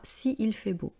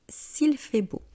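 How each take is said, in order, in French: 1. La voyelle de 'si' est conservée devant 'il'. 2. La voyelle de 'si' est supprimée devant 'il'. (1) "on ne dit pas" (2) "on dit"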